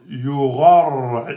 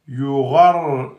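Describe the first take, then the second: No difference in how they are said.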